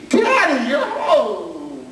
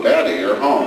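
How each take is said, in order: First: High, bright "Daddy, you're home" with a laugh; high, laughing child greeting; delighted child. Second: Low, deflated "Daddy, you're home"; the same words gone flat on seeing the spoon; "Daddy, you're home" said low and let down; dismayed child. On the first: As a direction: squeal it like a happy little girl. Child delighted to see dad. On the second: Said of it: "Then she sees the spoon". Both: Retold or imitated.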